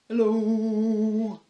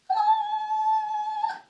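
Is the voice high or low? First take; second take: low; high. First: It is said in a very low voice. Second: It is said in a very high voice.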